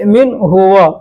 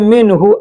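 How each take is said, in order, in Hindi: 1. सर्वनाम पूरे 'huwa' के रूप में अलग से बोला जाता है। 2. सर्वनाम छोटे 'hu' के रूप में जुड़ जाता है। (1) "अलग करके बोलेंगे" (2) "और अगर एक में करके बोलते हैं तो हु बोलना पड़ेगा"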